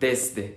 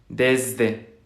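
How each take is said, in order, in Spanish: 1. El sonido del medio es una s fuerte y silbante. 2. El sonido del medio es una z suave y zumbante. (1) "Es una S fuerte, más sibilante, más vibrante" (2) "es una Z"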